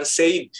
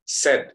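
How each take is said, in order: First: Said as "sayd", with the I heard; "said" with a gliding "ey"; wrong reading. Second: Said as "sed", with a short E; "said" rhyming with "bed"; silent I. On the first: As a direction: say "said" to rhyme with "made". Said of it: "jadi bukan said dibacanya". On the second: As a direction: say "said" like the first sound of "sedih". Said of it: "Jadi I-nya tidak diungkap". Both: Shown as a demonstration.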